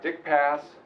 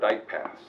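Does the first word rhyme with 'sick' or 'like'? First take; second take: sick; like. First: The name rhymes with 'sick'. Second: The name rhymes with 'like'. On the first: "I've heard this pronounced in two different ways"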